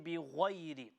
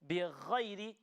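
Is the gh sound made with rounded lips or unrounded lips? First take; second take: rounded; unrounded. First: The lips are rounded during the gh sound. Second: The gh sound comes from the throat, unrounded. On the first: The speaker calls it wrong. "we cannot involve the lips. We cannot say" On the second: The speaker calls it right. "the correct way, which is just the throat"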